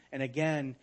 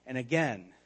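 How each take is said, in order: Both takes have the same delivery.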